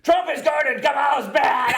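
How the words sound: It is said in a Fox News-presenter voice.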